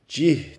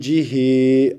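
First: The word stops on the final consonant. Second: The word ends with a final vowel. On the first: The reading stops at this word. "Cih diye duruluyor" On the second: The reading continues without a stop. "Normalde cihi"

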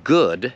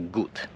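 First: The word ends in a clear d sound. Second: The word ends in a t-like sound. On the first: The speaker calls it right. "wymawia tą ostatnią literę mocno" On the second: The speaker calls it wrong. "to mówiła good"

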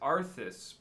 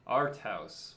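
First: It is said as one word, 'Arthas'. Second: It is said as two parts, 'Art Haus'. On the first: The speaker calls it wrong. "reading it as Arthas" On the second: The speaker calls it right. "We'll say it correctly now"

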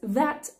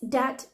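First: The word begins with a th sound. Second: The word begins with a d sound. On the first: "say it more like this, that" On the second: "they say these as dis, dat"

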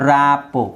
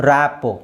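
No difference in how they are said.

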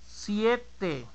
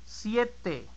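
Both takes have the same delivery.

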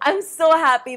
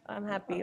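First: It sounds bubbly and exaggeratedly happy. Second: It sounds calm and naturally happy.

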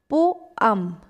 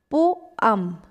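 First: The word is said as two syllables. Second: The same.

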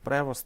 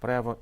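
First: The name ends with an audible st sound. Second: The name ends in a vowel, no final t. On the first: "інші кажуть Превост" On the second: "Одні кажуть Прево"

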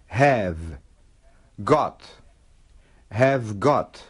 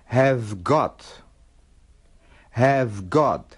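No difference in how they are said.

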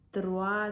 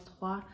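First: The r is pronounced too strongly. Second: The r is a soft throaty sound. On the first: The speaker calls it wrong. "трошки занадто сильно" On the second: The speaker calls it right. "Це між «х» і «г»"

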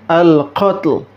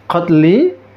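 First: The word ends on a bare consonant. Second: The word ends with a short vowel. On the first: The reading stops at this word. "Kalau berhenti" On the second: The reading continues to the next words. "Kalau ada lanjutannya"

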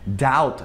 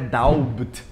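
First: The vowel goes straight to t, no b. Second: An audible b comes before the final t. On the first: The speaker calls it right. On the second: The speaker calls it wrong.

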